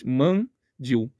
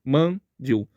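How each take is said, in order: No difference in how they are said.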